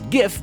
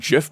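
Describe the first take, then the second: First: It begins with a hard G sound. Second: It begins with a soft J-like G sound. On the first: The speaker calls it wrong. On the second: The speaker calls it right.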